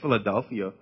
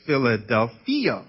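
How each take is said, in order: First: It is said like the English city name. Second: It is said with a Greek-style pronunciation. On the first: The speaker calls it wrong. "it sounds just like Philadelphia" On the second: The speaker calls it right. "But it's not pronounced that way. It's Philadelphia"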